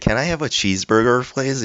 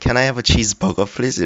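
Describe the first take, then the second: First: The R in burger is pronounced clearly. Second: The R in burger is dropped. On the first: The speaker calls it right. "원래 Can I have a cheeseburger please 이래야 되는데" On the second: The speaker calls it wrong. "R을 제대로 발음 안 하는 거예요"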